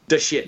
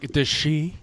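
First: The name is said in a plain way. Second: The name is said in a fancy way. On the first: "You wouldn't just say de shit" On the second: "there must be like a fancy pronunciation of that"

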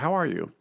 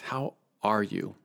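First: It is said at a normal, quick pace. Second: It is said slowly with more emphasis.

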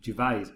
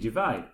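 First: The final S is pronounced. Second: The final S is silent. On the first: The speaker calls it right. "it's not a silent S" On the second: The speaker calls it wrong. "your pronunciation of Ricky Gervais. You pronounce it with a silent S"

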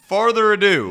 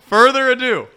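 First: The first word sounds like farther. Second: The first word sounds like further. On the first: The speaker calls it wrong. "You say farther" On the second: The speaker calls it right. "There it is"

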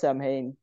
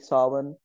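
First: The word is read out as it is spelled. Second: The word is said unlike its spelling. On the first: "You write it as Samhain" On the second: "but you say Samhain"

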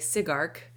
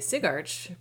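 First: The second part sounds like 'ark'. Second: The second part sounds like 'arch'. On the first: "in my mind it's architecture" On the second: "presumably because that's how it's spelled"

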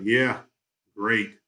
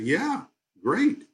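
First: The voice sounds flat and sarcastic. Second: The voice sounds warm and sincere. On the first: The speaker did not really like the dinner. "exactly the same words, but just the tone makes a difference" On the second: The speaker really liked the dinner. "Well, okay"

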